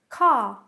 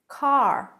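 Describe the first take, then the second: First: There is no final R sound. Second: The final R is clearly pronounced. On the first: "No R sound at all" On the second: "They'll roll the R"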